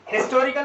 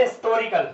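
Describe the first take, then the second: First: "हिस्टोरिकल" with a sounded h, higher pitched; H pronounced. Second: "हिस्टोरिकल" without h, first syllable unstressed; silent H. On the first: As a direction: hit an audible ह at the start of हिस्टोरिकल. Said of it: "हिस्टोरिकल नहीं". (हिस्टोरिकल में पहला ह ज़ोर से उच्चारित करें) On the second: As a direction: drop the opening ह of हिस्टोरिकल. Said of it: "पहले सिलेबल पर जोर ना दिया जाए". (हिस्टोरिकल को इस्टोरिकल जैसा बोलें) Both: Shown as a demonstration.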